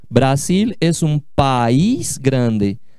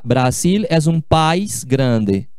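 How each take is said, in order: First: País is said as two syllables. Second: País is said as one syllable. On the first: The speaker calls it right. "aqui é um, é um hiato" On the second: The speaker calls it wrong. "Não se diz"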